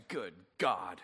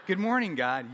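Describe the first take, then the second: First: Low, soft grumpy mumble; half-asleep grouch, much lower; groggy groan. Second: Laughing, bouncy good morning; sunny morning person, laughing; chipper morning greeting. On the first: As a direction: grumble it like you just woke up. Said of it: "I wake up and say". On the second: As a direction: greet God like a cheery early riser. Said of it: "'cause you're like". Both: Retold or imitated.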